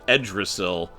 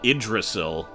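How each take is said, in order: First: The word begins with an 'e' vowel sound. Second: The word begins with an 'i' vowel sound. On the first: "or Ed Edrisil" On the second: "more likely pronounced uh, Idrisil"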